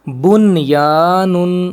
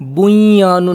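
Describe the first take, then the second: First: The n is pronounced clearly before the y. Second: The n is blended into the following y. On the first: The speaker calls it right. "नून को वाजे करके" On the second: The speaker calls it wrong. "बुया नुन नहीं पढ़ेंगे"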